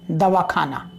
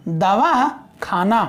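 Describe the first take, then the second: First: "दवा खाना" as one joined word, lower; शब्दों का संगम. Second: "दवा", pause, then "खाना", slowly; अलग-अलग शब्द. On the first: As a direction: run "दवा खाना" together without a break. ("दवा खाना" को जोड़कर एक शब्द जैसा बोलें) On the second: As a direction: split "दवा" and "खाना" into two separate words. ("दवा" और "खाना" के बीच रुककर धीरे बोलें) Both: Shown as a demonstration. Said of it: "अब बात समझ में आ गई है संगम वाले?".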